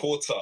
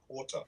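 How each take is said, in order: First: "Porter" with a clearly sounded T; crisp T. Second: "porter" with the T articulated, softer; crisp T. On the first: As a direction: hit the T in "Porter", pitched up and firm. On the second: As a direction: demonstrate "porter" with a careful T. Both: Shown as a demonstration. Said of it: "I should be saying with the T".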